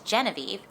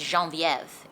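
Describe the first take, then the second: First: The name is said with an American accent. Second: The name is said with a French accent.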